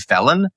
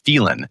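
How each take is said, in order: First: The name sounds like the word 'felon'. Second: The name does not sound like 'felon'. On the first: This is how other people say it. The speaker calls it wrong. "when people say felon" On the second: This is the family's traditional pronunciation. The speaker calls it right. "I go with what my family have traditionally done"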